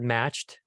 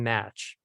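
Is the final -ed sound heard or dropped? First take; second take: heard; dropped. First: The final -ed sound is clearly pronounced. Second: The final -ed sound is left off. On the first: The speaker calls it right. "The word matched" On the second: The speaker calls it wrong. "you're saying match"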